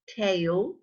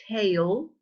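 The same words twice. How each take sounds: No difference in how they are said.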